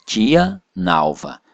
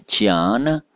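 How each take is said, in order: First: "tia Nalva" slow, with a clear break between the words; words not joined. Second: "tia Ana" run together with one shared A; vowels merged. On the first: Teacher showing no elision, "tia Nalva" said as two separate words. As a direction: keep "tia" and "Nalva" apart. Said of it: "não emenda". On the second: Teacher demonstrating elision, "tia Ana" joined on the A. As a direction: blend "tia Ana" with no gap. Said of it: "o A de tia emenda com um A de Ana". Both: Shown as a demonstration.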